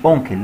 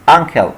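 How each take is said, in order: First: "أونكل" said as onkel, the wrong vowel; wrong pronunciation. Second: "أنكل" said as ankel, short a and el ending; correct pronunciation. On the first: Teacher showing the wrong "أونكل" to students. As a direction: say "أونكل" with o, the common mistake. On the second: Teacher modelling "أنكل" for students. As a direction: say "أنكل" as ankel, not onkel. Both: Shown as a demonstration. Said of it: "مش أونكل".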